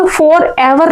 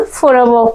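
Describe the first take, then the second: First: Said in the usual way. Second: फॉरएवर ending in an open vowel, no r; silent final r. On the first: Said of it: "फॉरएवर नहीं पढ़ना है". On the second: Shown as a demonstration. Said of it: "क्या पढ़ना?". (फॉरएवर को "फॉरएवो" जैसा बोलें)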